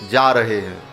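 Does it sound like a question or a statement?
statement. It is said as a plain statement.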